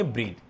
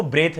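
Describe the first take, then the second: First: ब्रीथ with a long "ee" vowel; correctly pronounced ब्रीथ. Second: ब्रेथ with an "eh" vowel, as "breth"; mispronounced ब्रेथ. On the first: Teacher corrects students' reading of breathe, ब्रीथ with long "ee". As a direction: say ब्रीथ softly, stretching the ee sound. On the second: Teacher shows students the reading to avoid, mispronounced ब्रेथ with "eh". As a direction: say ब्रेथ with a short e sound. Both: Shown as a demonstration. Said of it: "इसको ब्रेथ नहीं पढ़ेंगे".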